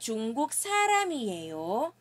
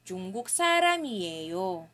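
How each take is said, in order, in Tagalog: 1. Tumataas ang tono sa dulo. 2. Bumababa ang tono sa dulo. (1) "Dapat ang ating tono ay pataas" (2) "Yung tono niya ay pababa na, papababa, falling intonation na siya"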